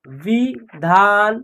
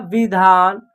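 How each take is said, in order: First: "विधान" as "वि", gap, "धान"; split into syllables. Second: Said in the usual way. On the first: Shown as a demonstration. Teacher sounding out a word, "विधान" in two slow separate parts. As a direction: slowly break "विधान" into वि and धान. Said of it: "तीनों को जोड़ेंगे तो एक शब्द". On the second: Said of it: "क्या होगा".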